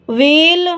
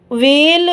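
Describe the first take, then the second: No difference in how they are said.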